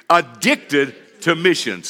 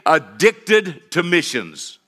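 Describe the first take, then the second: First: Slow call-and-response Addicted to missions; leading the church in a chant; congregation repeat. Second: Slow, stretched title phrase; drawn-out sermon title; title said slowly. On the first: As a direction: drag it out for the crowd to echo. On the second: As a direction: lay out each word of Addicted to Missions. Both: Shown as a demonstration. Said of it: "Everybody say it with me".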